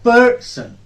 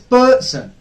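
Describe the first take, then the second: First: The stress is on the first syllable. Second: The stress is on the first syllable.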